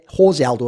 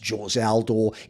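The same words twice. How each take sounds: First: The first name begins with an H sound. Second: The first name begins without an H sound. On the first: This is the Spanish-speaking form of the name. "if he'd been Mexican or something similar" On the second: This is the Portuguese-speaking form of the name.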